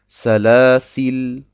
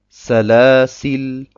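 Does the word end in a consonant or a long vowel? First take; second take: consonant; consonant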